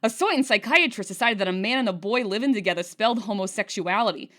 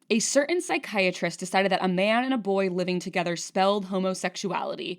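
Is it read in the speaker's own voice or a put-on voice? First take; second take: put-on voice; own voice. First: It is read in a put-on voice. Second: It is read in the speaker's normal voice.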